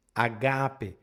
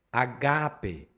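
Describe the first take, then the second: First: Agape starting straight on the vowel; unaspirated Agape, repeated. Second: Agape opening on a plain a, no h; unaspirated agape. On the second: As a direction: say agape with no breath on the first a. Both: Shown as a demonstration. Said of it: "Ele é brando".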